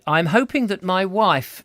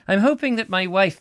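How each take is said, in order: First: It is read in the reader's ordinary accent. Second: It is read in a Scottish accent.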